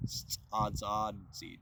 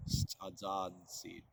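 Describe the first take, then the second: First: Stadzadzid said slowly syllable by syllable; teacher introducing the verb stadzadzid; slow careful word. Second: Stadzadzid repeated slowly syllable by syllable; teacher repeating the verb Stadzadzid; slow careful word. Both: Shown as a demonstration. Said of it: "there's actually a verb for that".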